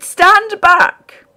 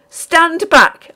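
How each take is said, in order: First: Even higher, loud shrieked "Stand back!"; desperate piercing yell. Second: High, loud shriek of "Stand back!"; frantic high yell. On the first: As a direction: scream it again, wilder. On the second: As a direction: scream at him to keep away. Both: A narrator's reading. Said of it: "I shrieked".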